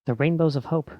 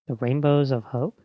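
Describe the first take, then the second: First: Said in the usual way. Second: Slow "Rainbows of Hope" with a rise at the end; questioning echo. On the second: Acted. What's that?.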